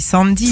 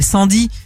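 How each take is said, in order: First: The name is said with American pronunciation. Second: The name is read with French pronunciation. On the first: The speaker calls it right. "faut le prononcer à l'américaine" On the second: The speaker calls it wrong. "il y a des gens qui lient littéralement"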